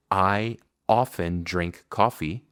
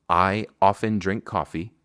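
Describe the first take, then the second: First: I often drink coffee slowly; slow model. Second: Said in the usual way. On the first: Shown as a demonstration. Teacher models the example sentence slowly. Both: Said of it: "Por ejemplo".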